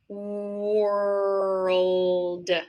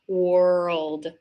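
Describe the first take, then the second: First: The word is said very slowly. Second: The word is said at normal speed.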